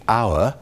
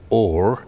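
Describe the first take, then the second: First: The word sounds like 'our', with no h. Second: The word sounds like 'or', with no h. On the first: This is the modern English pronunciation. "our, in modern English" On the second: This is the early modern English pronunciation. "becoming or in the in the earlier version"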